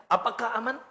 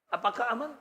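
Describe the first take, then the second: Both takes have the same delivery.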